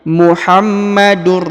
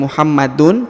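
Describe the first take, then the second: First: The n sound merges into the r. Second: The n sound is kept before the r. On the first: The speaker calls it right. "tapi Muhammadur" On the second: The speaker calls it wrong. "bukan lagi Muhammadun"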